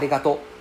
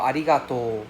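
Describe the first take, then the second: First: The final O vowel is cut short. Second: The final O vowel is drawn out long. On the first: The speaker calls it wrong. "it's not arigato" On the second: The speaker calls it right. "it's a long O sound for arigatou"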